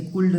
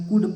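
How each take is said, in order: First: "कुल्ड" with the L sounded; wrong "could". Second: "कुड" with silent L; correct "could". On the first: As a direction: say "कुल्ड", pronouncing the silent L. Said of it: "इसे कुल्ड नहीं पढ़ेंगे". ("कुल्ड" में ल का ग़लत उच्चारण) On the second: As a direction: say "कुड" without any L. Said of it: "एल का उच्चारण इसमें नहीं होगा". ("कुड" में ल silent) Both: Shown as a demonstration.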